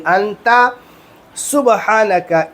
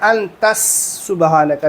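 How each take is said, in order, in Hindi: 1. पहला शब्द a की ध्वनि से खत्म होता है। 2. पहला शब्द s की ध्वनि से खत्म होता है। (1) "नहीं, अंता सुबहानका" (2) "बहुत सारे लोग क्या कहते हैं"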